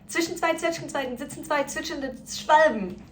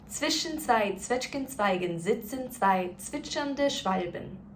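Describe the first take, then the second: First: It is spoken as fast as possible. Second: It is spoken at a moderate, quicker pace. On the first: "Let's try it as fast as we can" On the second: "let's speed it up a little bit"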